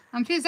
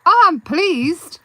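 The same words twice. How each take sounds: First: Said in the usual way. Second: Slow, louder pleased exclamation; delighted. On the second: Real, not acted. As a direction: sound really delighted. Reacting happily to a viewer comment.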